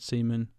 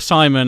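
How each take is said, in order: First: The name is said the foreign way. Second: The name is said the local way.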